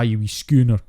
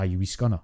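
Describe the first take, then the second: First: The last word has a long 'oo' vowel. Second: The last word has a short 'uh' vowel. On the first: This is how impressionists fake the accent. The speaker calls it wrong. "People who are doing a Scottish impression automatically think that's a ooh" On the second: This is how Scots actually say it. The speaker calls it right. "one thing that I used to get called quite a lot as a child"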